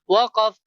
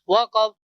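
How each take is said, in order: The two takes are said the same way.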